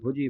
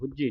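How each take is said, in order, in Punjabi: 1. ਇਹ ਸ਼ਬਦ ਹੌਲੀ ਅਤੇ ਹਲਕੇ ਢੰਗ ਨਾਲ ਬੋਲਿਆ ਜਾਂਦਾ ਹੈ। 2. ਇਹ ਸ਼ਬਦ ਜ਼ੋਰ ਨਾਲ ਅਤੇ ਭਾਰੇ ਢੰਗ ਨਾਲ ਬੋਲਿਆ ਜਾਂਦਾ ਹੈ। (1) "ਪੋਲਾ ਉਚਾਰਨ ਕਰਨਾ, ਬੁਝੀ ਬੋਲਣਾ" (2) "ਬੁਝੀ ਨਹੀਂ ਪੜਨਾ"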